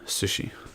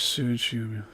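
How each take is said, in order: First: The vowels are short and clipped. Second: The vowels are drawn out and long. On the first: "those are short vowel sounds. They're not long" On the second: "English sushi"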